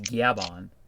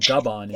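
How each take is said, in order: First: The first syllable has a y glide. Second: The first syllable has no y glide. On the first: The speaker calls it right. "it's Gyabon" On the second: The speaker calls it wrong. "It's not Gabon"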